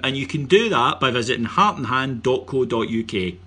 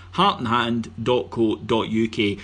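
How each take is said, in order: First: Said in the usual way. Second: Slow, clear web address. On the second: Shown as a demonstration. Host repeats the website slowly for listeners to note. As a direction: spell out "Heart and hand dot co dot U K" slowly, every word separate. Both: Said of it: "Nice and simple".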